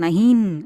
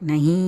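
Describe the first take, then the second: First: The word ends with a full n consonant. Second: The word ends in a nasalized long vowel. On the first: The speaker calls it wrong. "அப்படியெல்லாம் சொல்லக்கூடாது" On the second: The speaker calls it right. "நஹீ அப்படி தான் சொல்லணும்"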